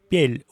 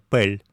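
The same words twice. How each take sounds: First: The p before e is softened. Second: The p before e stays hard. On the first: This is how most native speakers say it. "Произносит «пель»" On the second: This is the textbook pronunciation. "вместо «пель»"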